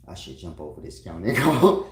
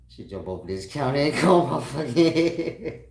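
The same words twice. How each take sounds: First: Loud exasperated rising "go". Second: Louder, higher, laughing repeat. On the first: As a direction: blurt it fed up. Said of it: "I said". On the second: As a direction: say it again, more worked up. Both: Retold or imitated.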